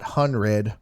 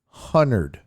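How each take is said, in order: First: The word has a clear d before the r. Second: The d is dropped, giving a double n sound. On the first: "Not hundred" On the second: "H U N N E R D"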